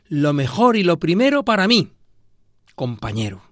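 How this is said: There is a pause before compañero.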